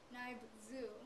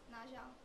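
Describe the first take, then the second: First: The word is sounded out following English letter sounds. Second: The word is said with native Hmong sounds. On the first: The speaker calls it wrong. "if you read it the English way" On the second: The speaker calls it right. "It's pronounced as"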